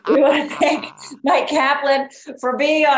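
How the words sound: It is said in a put-on announcer-style podcast voice.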